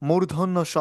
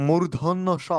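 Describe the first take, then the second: No difference in how they are said.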